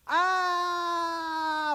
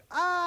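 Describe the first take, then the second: First: Long high scream cut short by impact; falling scream. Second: High scream that comes after the impact; short fall, late high yelp; belated falling scream. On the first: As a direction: scream all the way down. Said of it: "falling out fifteen stories goes". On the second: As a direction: hit first, then cry out high. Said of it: "falling out one story goes". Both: Retold or imitated.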